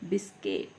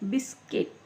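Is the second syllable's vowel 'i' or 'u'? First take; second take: i; i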